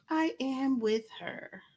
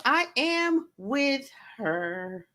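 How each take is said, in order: First: Softer, slow repeat to herself; soft echo. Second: Slow, stretched, emphatic; drawn-out agreement. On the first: Repeating her agreement to viewers, soft and trailing. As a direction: let it fall away quietly. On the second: Backing up a viewer's comment, slow and stretched. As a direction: draw every word out slowly. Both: Real, not acted.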